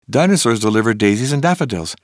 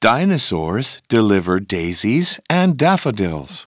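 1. La phrase est prononcée à un rythme très rapide. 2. La phrase est prononcée à un rythme modéré.

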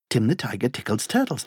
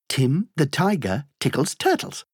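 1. La phrase est dite à un rythme très rapide. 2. La phrase est dite à un rythme rapide. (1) "Encore plus vite" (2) "plus vite"

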